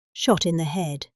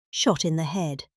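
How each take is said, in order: Both takes have the same delivery.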